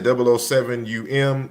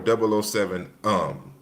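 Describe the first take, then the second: First: The ending is spoken as two separate letters. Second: The ending is spoken as one short word. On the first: "Should I say" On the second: "as I'm pronouncing it"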